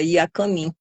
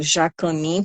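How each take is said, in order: First: The word begins with a y sound. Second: The word begins with a zh sound. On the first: This is how Tupi-Guarani speakers say the name. "o Tupi-Guarani, né, pronuncia Iacamim" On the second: This is the common Portuguese form of the name. "como a gente conhece"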